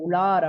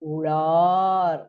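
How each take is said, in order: First: The long vowel is held for normal length. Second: The long vowel is stretched out extra long. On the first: "நம்ம சாதாரணமா சொல்லும் பொழுது" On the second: "ஆனா இந்த இடத்துல"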